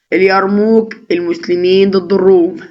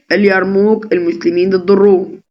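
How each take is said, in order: No difference in how they are said.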